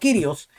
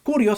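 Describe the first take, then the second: First: The first vowel sounds like 'ee'. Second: The first vowel sounds like 'oo'. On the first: The speaker calls it right. "sino Kyrios" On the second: The speaker calls it wrong. "la pronunciación correcta no es Curios"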